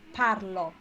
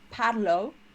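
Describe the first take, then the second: First: The final O is pronounced open. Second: The final O is pronounced closed. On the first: The speaker calls it right. "So it's open" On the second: The speaker calls it wrong. "it's not"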